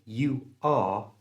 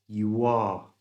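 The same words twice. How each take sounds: First: The two words are said without a linking sound. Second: A small W sound links the two words. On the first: "He didn't say you are" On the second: "a little W sound to join the U and the R together"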